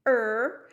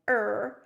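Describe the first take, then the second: First: Loud creaking "Er" like a branch; crying creak. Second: Loud drawn-out creaking "Er"; crying creak. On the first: Teacher repeating the crying tree sound, loud creaking "Er". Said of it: "That's the sound it would make". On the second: Teacher demonstrating the crying tree sound, a loud creaking "Er". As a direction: groan "Er" like a creaking, crying branch. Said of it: "So it would sound like this". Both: Shown as a demonstration.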